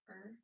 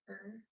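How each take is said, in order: First: The R sound is harsh, made back in the throat. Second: The same.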